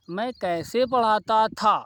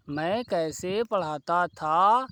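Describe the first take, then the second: First: Said in the usual way. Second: मैं कैसे पढ़ाता था drawn out slowly, word by word; slow dictation. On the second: Shown as a demonstration. Teacher dictating the Hindi example slowly to the class. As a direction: repeat it slowly so students can write. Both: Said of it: "तो हिंदी कैसे होती".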